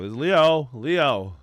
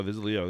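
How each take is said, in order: First: Excited recognition. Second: Said in the usual way. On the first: Real, not acted. Spotting his friend's post, hyped and loud.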